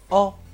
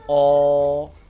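First: The vowel is short. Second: The vowel is long. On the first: The speaker calls it right. "一定是短耳级数的o" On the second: The speaker calls it wrong. "注意不能说成o"

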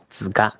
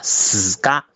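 First: The word begins with a z sound. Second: The word begins with an s sound. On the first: The speaker calls it wrong. "但我都听到都在说子嘎子嘎，这是不对的啊" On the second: The speaker calls it right. "他说自己应该是死嘎SS 的那个音啊"

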